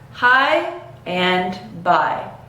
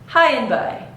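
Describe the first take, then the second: First: The words are said slowly and separately. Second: The words are said fast and linked together. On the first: "say the words separately" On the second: "gradually increase the speed to tie them together"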